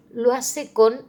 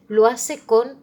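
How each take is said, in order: Both takes have the same delivery.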